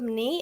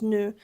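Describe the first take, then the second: First: The vowel stays open and unrounded. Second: The vowel closes into a rounded sound. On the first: "instead of nee" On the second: "it just closes and becomes nu"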